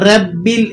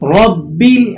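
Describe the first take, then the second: First: The r is pronounced thin and light. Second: The r is pronounced full and heavy. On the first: The speaker calls it wrong. "इसको light weight करके नहीं पढ़ना, मतलब इसको बारीक करके अदा नहीं करना, रब्बिल इस तरह से नहीं पढ़ेंगे" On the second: The speaker calls it right. "रॉ को यहां पुर करके आपने अदा करना है"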